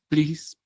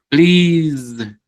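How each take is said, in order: First: The word ends with a hissing s sound. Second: The word ends with a buzzing z sound. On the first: The speaker calls it wrong. "con una S sencilla" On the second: The speaker calls it right. "esta S se vuelve Z"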